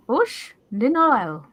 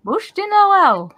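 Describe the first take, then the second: First: "Bush de Noël" with "Bush" said like the English word bush; anglicized pronunciation. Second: "Bûche de Noël" said slowly, trying a French "bûche" and "Noël"; attempted French pronunciation. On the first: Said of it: "A bush?". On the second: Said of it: "I can't do a French accent". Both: Shown as a demonstration.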